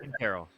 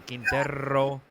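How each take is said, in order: First: The R is rolled briefly, just once. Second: The R is rolled long, with extra trills.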